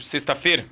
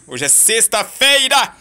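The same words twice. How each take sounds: First: Said in the usual way. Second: Slow, drawn-out Friday cheer; excited announcement. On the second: Real, not acted. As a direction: stretch out sexta-feira, delighted.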